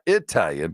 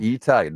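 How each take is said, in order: First: The first vowel is not an 'ee' sound. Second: The first vowel is an 'ee' sound. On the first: The speaker calls it wrong. "not Italian" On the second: The speaker calls it right. "always pronounced like the double E in the word C"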